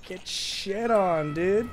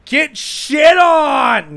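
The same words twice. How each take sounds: First: Higher, drawn-out playful jeer; restrained taunt. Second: High, drawn-out, very loud jeer; taunting shout. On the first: Player taunts once more after just kidding, drawn-out playful jeer. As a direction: stretch the taunt out without yelling. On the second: Player jeers at the opponent before kidding, a long shout. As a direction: yell a long gloating taunt. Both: Real, not acted.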